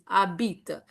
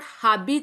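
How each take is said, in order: First: The word starts directly with a vowel sound. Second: The word starts with an audible h sound. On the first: The speaker calls it right. "It is abit" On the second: The speaker calls it wrong. "It is not habit"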